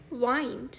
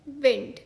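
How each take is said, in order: First: वाइंड rhyming with "find"; long I in वाइंड. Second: विंड with the short vowel of "win". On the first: Teacher giving the second pronunciation, वाइंड with long i. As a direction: say वाइंड with an eye glide. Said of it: "इस शब्द का दूसरा उच्चारण है". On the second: Teacher giving the first pronunciation, विंड with short i. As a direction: say विंड as in moving air, short i. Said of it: "इस शब्द का एक उच्चारण है". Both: Shown as a demonstration.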